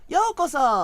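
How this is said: It is said in a high voice.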